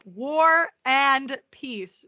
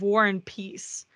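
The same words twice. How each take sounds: First: The words are split apart with clear pauses. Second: The words are run together without pauses. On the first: It names the novel about war and peace. The speaker calls it right. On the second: It sounds like the name of a character. The speaker calls it wrong.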